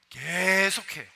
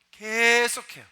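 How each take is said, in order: First: Said in the usual way. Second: 계속해요 repeated louder and higher; emphatic. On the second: Shown as a demonstration. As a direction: hammer 계속해요 with a louder push.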